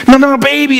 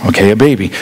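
First: High, insistent correction; excited angel. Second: Low, underwhelmed acknowledgment; unimpressed reply. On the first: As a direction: insist in a high, eager pitch. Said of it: "this angel that's just so excited about this event". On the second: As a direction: drop low, as if missing the big deal. Unimpressed listener answers the angel. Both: Acted.

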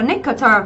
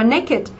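First: "nicketer" said as the wrong reading of naked; mispronounced naked. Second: "naked" in two syllables, ending pronounced -id; correct pronunciation. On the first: Teacher shows students the mistake, "nicketer" for naked. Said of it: "thì mình không đọc là". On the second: Teacher corrects the class, "naked" with a spoken -id ending. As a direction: say "naked" as NAY-kid. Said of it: "mà mình đọc là". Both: Shown as a demonstration.

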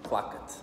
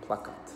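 The two takes are said the same way.

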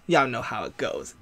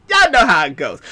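First: Low, much softer throwaway aside; hushed, low-pitched knowing aside; quiet aside. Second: Said in the usual way. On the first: Real, not acted. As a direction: drop it low, almost to yourself. Aside, then repeated in usual voice.

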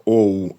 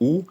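First: «оу» said as two vowels, o gliding to oo; «оу» as an oh-oo diphthong; misreading as «оу». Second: «у» said as one pure oo vowel; one vowel in «у», no glide; read as plain «у». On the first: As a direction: split «оу» into o plus oo. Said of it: "як дехто читає". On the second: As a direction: give «у» as a single oo sound. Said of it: "її треба читати як". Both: Shown as a demonstration.

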